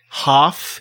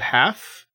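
First: It is said in a Rhode Island accent. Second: It is said in a standard accent. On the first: This is how the family from Rhode Island says it. "they say things like half" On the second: This is the usual way others say it. "instead of half"

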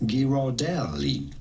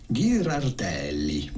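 First: The name is pronounced with an English accent. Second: The name is pronounced with an Italian accent. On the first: "it'd be fine in English or American to say Ghirardelli" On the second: "In Italian, this would be said Ghirardelli"

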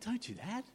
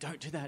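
First: It is said in a gentle, caring tone. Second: It is said in a stern, commanding tone. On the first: It is a loving warning. "See the difference in a father heart?" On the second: It is a strict order. "you think I've been saying"

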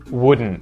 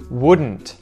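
First: The final T is muted, not released. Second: The final T is clearly pronounced. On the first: "I'm going to say the word with the muted T" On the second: "I'm going to say the word with the T"

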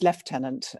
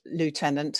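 First: It is said the British way, lef-tenant. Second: It is said the American way, loo-tenant.

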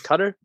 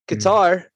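First: Qatar is said the local, native way. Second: Qatar is said the American way. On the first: This is the correct pronunciation. "I think the actual correct pronunciation is Qatar" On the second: This is how Americans say it. "but fuck them"

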